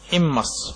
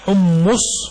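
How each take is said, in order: First: The first vowel is i, the second a. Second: Both vowels are u, with a doubled m. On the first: The speaker calls it right. "أو فتح الميم" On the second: The speaker calls it wrong. "ضم الحاء وتجديد الميم مع ضمها حمص، قال فليست لغة"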